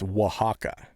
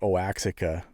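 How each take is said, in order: First: It is pronounced the native Mexican way. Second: It is pronounced letter by letter, as spelled. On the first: The speaker calls it right. "and it's" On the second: The speaker calls it wrong. "If you read it, it looks like"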